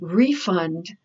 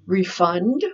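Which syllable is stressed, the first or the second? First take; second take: first; second. First: The stress is on the first syllable. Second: The stress is on the second syllable. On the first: It is used as a noun. "refund, the noun" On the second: It is used as a verb. "refund, the verb"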